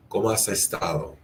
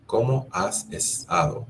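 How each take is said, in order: First: Said in the usual way. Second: Higher, lifted question on ¿Cómo has estado?; friendly asking voice; question tune. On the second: Shown as a demonstration. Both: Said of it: "How do you say it?".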